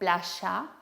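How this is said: The middle consonant sounds like a 'sh'. This is how Rioplatense speakers say it. "sino playa"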